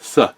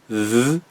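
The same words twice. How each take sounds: First: The th sound is voiceless, without buzzing. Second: The th sound is voiced, with buzzing. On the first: "That's um, unvoiced" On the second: "It's voiced"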